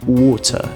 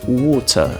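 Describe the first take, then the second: First: It has a soft, subtle British R. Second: The same.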